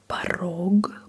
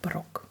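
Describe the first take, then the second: First: The final consonant is a voiced g. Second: The final consonant is a voiceless k.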